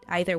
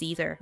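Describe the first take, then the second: First: It is said with a British pronunciation. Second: It is said with an American pronunciation. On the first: "Either would be more British" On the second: "I believe American way is either"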